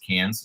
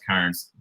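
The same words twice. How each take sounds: First: It is said the way locals say it. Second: It is said the way Americans say it. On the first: This is how people there say it. The speaker calls it right. "I guess it's Cairns where they say it" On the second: This is how the speakers have been saying it. The speaker calls it wrong. "I thought it's Cairns"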